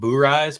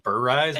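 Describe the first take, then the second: First: The first syllable sounds like 'boo'. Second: The first syllable sounds like 'bur'. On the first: This is how some other people say it. "Some people call them boo-ryes" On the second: This is how the speaker says it. "so I call them bur-ryes because I say bourbon"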